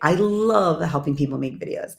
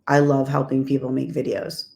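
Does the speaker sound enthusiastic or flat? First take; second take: enthusiastic; flat. First: It is said warmly, with lively energy. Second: It is said flatly, without energy. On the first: The speaker truly means it. The speaker calls it right. "that's that" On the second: The speaker does not really mean it. The speaker calls it wrong. "you're like, mm, no, you don't"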